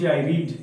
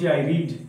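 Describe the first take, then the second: First: The verb has a long 'ee' vowel. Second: The same.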